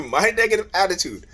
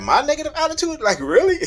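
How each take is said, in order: First: Chuckling over the phrase; laughing repeat. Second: Can't believe she said that; incredulous. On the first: Real, not acted. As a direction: laugh off the accusation. Repeats her words, laughing. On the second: Retold or imitated. Retold quarrel, wife blames him.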